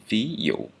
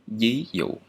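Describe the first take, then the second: First: The first sound is a V sound. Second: The first sound is a palatal Y-like sound. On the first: The speaker is using the standard pronunciation. "the standard pronunciation of this consonant is is still V" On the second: The speaker is using the Southern pronunciation. "if I'm in the South, I would pronounce this one like"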